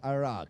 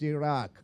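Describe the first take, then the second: First: The word is said with an English pronunciation. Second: The word is said with an Arabic pronunciation. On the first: The speaker calls it wrong. "Here you people pronounce it as Iraq" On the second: The speaker calls it right. "More correct pronunciation is Iraq, because it is a Middle East word"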